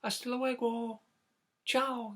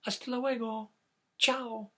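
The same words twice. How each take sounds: First: High chick goodbye. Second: High chick goodbye demo. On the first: Acted. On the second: Shown as a demonstration. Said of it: "You wanna try that?".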